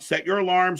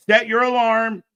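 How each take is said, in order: First: Said in the usual way. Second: Louder repeat. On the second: Real, not acted. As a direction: Set punched louder and higher, the whole phrase "Set your alarm" pushed out as an emphatic order.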